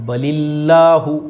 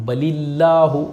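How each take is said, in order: No difference in how they are said.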